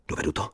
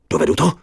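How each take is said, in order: First: "Dovedu" asked much softer, almost to himself; quiet doubt. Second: "Dovedu to?" pitched higher and louder, stress on "to"; urgent question. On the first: Narrator asks himself softly whether he can manage. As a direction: murmur "Dovedu to?" softly inward. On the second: Narrator asks himself again, higher and louder. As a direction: push "to" up in alarm. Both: Acted. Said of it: "Dovedu to? asked twice".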